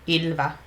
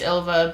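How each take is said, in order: First: The name is said with its original pronunciation. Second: The name is said with an American pronunciation. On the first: "my name is pronounced Ilva" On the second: "that's the Americanized version"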